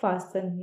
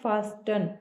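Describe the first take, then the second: First: The t sound is silent in the middle. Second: The t sound is pronounced in the middle. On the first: The speaker calls it right. "लेकिन इसको बोला जाता है फासन। यहाँ पे टी जो है silent होता है" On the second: The speaker calls it wrong. "बहुत से लोग बोलते हैं फास्टन"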